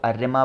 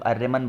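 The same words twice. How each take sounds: First: आर्यमा said with a final long a, no closing n; आर्यमा with no n at the end; saying Aryama. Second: आर्यमन said with a closing n after the short a; आर्यमन with the n sounded at the end; saying Aryaman. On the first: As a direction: pronounce it आर्यमा, ending open on a. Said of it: "बहुत सारे लोग आर्यमा बोलते हैं". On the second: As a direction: pronounce it आर्यमन, ending on n. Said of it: "बहुत सारे लोग आर्यमन बोलते हैं". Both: Shown as a demonstration.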